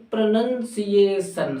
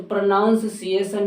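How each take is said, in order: First: प्रोनंसिएशन slowly as pro-nun-siation; NUN syllable. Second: प्रोनाउंसिएशन as pro-noun-siation; OW vowel. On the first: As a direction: draw out प्रोनंसिएशन with nun second. (प्रोनंसिएशन खींचकर, नन के साथ) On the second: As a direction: put an ow in प्रोनाउंसिएशन. (प्रोनाउंसिएशन में आउ की आवाज़) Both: Shown as a demonstration. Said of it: "तो प्रोनाउंसिएशन नहीं".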